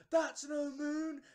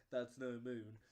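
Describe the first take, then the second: First: High, loud, drawn-out yell; mock crowd shout. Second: Said in the usual way. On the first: Whole audience shouting the line before the actor, mock yell. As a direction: bellow the famous line, stretching every word. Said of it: "everyone's gone". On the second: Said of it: "the guy pulls it down".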